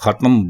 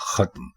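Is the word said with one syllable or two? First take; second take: two; one. First: It is two syllables, with a vowel before m. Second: It is one syllable, with no vowel before m. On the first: The speaker calls it wrong. "इसको भी हमारे लोग खत्म बोलते हैं" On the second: The speaker calls it right. "दुरुस्त लफ्ज है खत्म"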